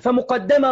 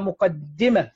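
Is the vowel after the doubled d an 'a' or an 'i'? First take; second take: a; i. First: The doubled d is followed by an a vowel. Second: The doubled d is followed by an i vowel. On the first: This is a rarer dialectal form. "برضو بفتح الدال" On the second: This is the more common form. "الأغلب فيها مقدمة بكسر الدال"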